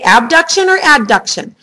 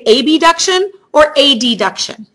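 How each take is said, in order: First: The words are said casually and run together. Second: Each sound is enunciated separately and very clearly. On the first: This is how people normally say it at work. "in the real world ... you're going to say abduction or adduction" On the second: The two similar terms cannot be mistaken for each other. "so that you can clearly hear how I am enunciating the word"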